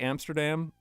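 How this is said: It is pronounced the English way. The speaker calls it wrong. "that's easier to say when I'm speaking English"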